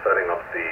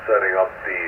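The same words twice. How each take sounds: The two takes are said the same way.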